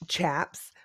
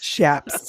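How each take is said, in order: First: The word begins with a ch sound. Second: The word begins with a sh sound. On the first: "instead of calling them chaps" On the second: "she would call them shaps"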